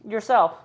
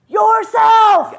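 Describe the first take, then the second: First: It is said at normal volume. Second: It is said loudly.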